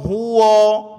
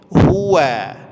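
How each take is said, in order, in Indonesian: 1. Bunyi w itu tebal dan berat. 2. Bunyi w itu tipis, bibir tersenyum. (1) "Bagaimana contoh kesalahannya?" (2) "Waw itu huruf tipis, senyum"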